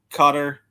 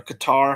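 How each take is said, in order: First: "Qatar" stressed on the first syllable, like "cutter"; "Qatar" rhyming with "cutter"; alternate pronunciation. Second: "Qatar" stressed on the second syllable, kuh-TAR; "Qatar" with a short first syllable and an open, stressed "-TAR"; alternate pronunciation. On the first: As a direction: say "Qatar" as CUT-er. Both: Shown as a demonstration. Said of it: "however you wanna pronounce it".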